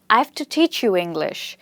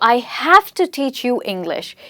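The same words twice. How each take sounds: First: 'Have' is contracted and carries no stress. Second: 'Have' is said in full and stressed. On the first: It no longer expresses a duty. The speaker calls it wrong. "your emphasis is not on the word have" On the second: It expresses an obligation. The speaker calls it right. "the stress is on the word have"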